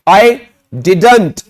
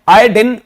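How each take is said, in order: First: The word is said in full as 'didn't'. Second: The word is reduced to 'din'. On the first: "writing में डिडंट होता है" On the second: "spoken English में डिन बोला जाता है।"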